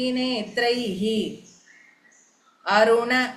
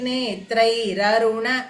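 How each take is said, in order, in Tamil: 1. முதல் சொல் h ஒலியில் முடிகிறது. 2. ஒரு r ஒலி இரண்டு சொற்களையும் இணைக்கிறது. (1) "பிரிச்சு சொல்லணுமானா" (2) "சேர்த்து சொல்லணும்னா"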